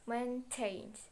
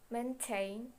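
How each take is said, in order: First: "maintained" with TAINED stressed; stress on last syllable. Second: Said in the usual way. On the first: Shown as a demonstration. Teacher showing a strong last syllable, mainTAINED stressed. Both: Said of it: "if the last syllable is strong, it is emphasis".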